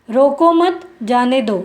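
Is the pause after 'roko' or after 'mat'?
after mat. There is a pause after 'mat'.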